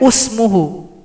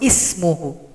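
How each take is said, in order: First: The word begins with a u vowel. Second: The word begins with an i vowel. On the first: The speaker calls it wrong. "Tidak boleh usmuhu" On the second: The speaker calls it right. "Harus ismuhu"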